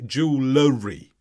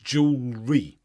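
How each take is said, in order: First: An extra L sound comes before the ending. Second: No extra L sound comes before the ending. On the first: The speaker calls it wrong. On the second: The speaker calls it right.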